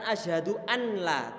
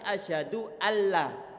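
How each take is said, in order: First: A clear n sound is heard before the l. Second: The n vanishes into a doubled l sound. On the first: The speaker calls it wrong. "bukan asyhadu anla" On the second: The speaker calls it right. "tapi asyhadu alla"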